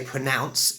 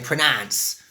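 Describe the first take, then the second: First: It is said in a received pronunciation accent. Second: It is said in a Cockney accent. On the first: "I would say pronounce in received pronunciation" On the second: "with Cockney, I would say pronounce"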